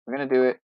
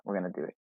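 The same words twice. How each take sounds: First: Said in the usual way. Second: Soft, low, stress on "We're"; talking to himself as he makes up his mind; quiet aside. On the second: Real, not acted. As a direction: mutter "We're gonna do it" under your breath, leaning on "We're". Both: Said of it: "You know what?".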